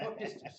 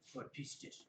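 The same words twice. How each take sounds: First: It is said in a plain, neutral way. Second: It is said angrily, like an old man.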